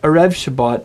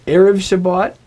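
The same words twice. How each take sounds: First: Erev with E reduced, REV stressed; stress on last syllable. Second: Erev with E raised and punched; stress on first syllable. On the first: Teacher summing up what's wrong, Erev stressed on REV. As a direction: throw the accent onto the end of Erev. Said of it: "not Erev Shabbat". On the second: Teacher summing up the correct form, Erev stressed on E. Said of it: "two common ones that people get wrong". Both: Shown as a demonstration.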